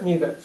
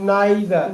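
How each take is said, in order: First: The first vowel sounds like 'ee'. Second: The first vowel sounds like 'eye'.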